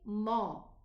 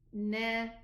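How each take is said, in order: First: The syllable is heavy, with a full mouth. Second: The syllable is light, with a thin mouth. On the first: The speaker calls it wrong. "the noon is not elevated. So don't say" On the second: The speaker calls it right. "it's na"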